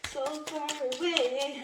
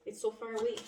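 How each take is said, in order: First: Higher, slow, drawn-out eerie voice; eerie echo. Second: Said in the usual way. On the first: Retold or imitated. Echoing a voice she keeps hearing, slow and high. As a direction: echo a far-off spirit voice. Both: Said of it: "I keep hearing that".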